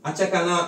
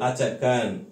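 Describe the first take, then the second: First: The word ends with a final 'a' vowel. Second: The word ends on a bare 'n' consonant. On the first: The speaker calls it wrong. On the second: The speaker calls it right.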